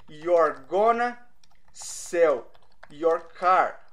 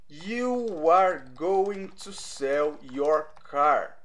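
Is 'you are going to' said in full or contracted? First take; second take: contracted; full. First: It is contracted to 'you're gonna'. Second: Every word of 'you are going to' is said fully. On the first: "tem a parte contraída" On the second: "ao invés de falar are you going to ou you are going to"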